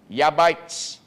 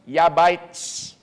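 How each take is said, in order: First: The name begins with a Y sound. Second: The name begins with a Y sound.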